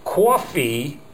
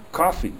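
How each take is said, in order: First: "coffee" said kwaw-fee, a w slipped in after the k; drawn-out New Jersey "coffee" with a rounded aw. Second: "Coffee." with a clean k and no w, Midwest style; plain Midwestern "Coffee." said kaw-fee; practising "Coffee." without the Jersey w. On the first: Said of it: "is the way coffee is said in Jersey". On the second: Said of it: "by repeating back". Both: Shown as a demonstration.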